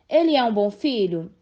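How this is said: It is said with a questioning, rising tune. The speaker is asking for information. "Expressa um pedido de informação"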